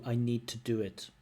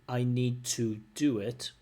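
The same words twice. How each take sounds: First: The word 'to' has a reduced vowel. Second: The word 'to' keeps its full vowel. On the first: "Weak form of to" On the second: "Strong form of to"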